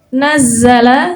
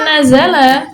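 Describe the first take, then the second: First: The z sound is held long and doubled. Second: The z sound is short and single. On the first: It was sent down gradually, many times. "zainya dua, tasydid itu ya" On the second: It was sent down all at once. "tanpa tasydid"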